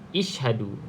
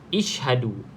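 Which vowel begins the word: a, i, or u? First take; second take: i; i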